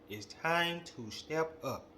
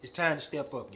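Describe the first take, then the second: First: "It's time to step up" said slowly, each word pressed; slow emphatic call. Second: Said in the usual way. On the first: Real, not acted. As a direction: lean on "time" and draw it out.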